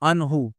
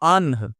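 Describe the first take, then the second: First: The word ends with a short 'u' vowel. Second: The word ends on a bare 'h' sound. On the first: The reading continues without a stop. "हा पेश हू" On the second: The reader stops at this point. "हा साकिन हो जाएगा"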